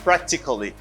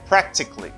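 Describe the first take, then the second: First: The ending is two syllables, like 'ca-lly'. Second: The ending is one syllable, like 'cly'. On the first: The speaker calls it wrong. "Don't say practically" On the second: The speaker calls it right. "say cli"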